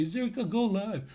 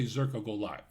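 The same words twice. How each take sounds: First: Higher-pitched imitation of a pleading fan; mock needy plea. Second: Said in the usual way. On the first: Streamer imitates viewers with a bad feed, mock needy plea. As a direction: mimic a needy viewer, lightly. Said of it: "You won't say it like a". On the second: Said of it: "You'll say".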